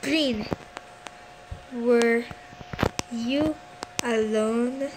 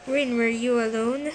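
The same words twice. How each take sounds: First: Long pauses after "Green", "were" and "you"; word by word. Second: Said in the usual way. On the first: Real, not acted. Player questioning Green, "Green, were you alone?" broken by long pauses.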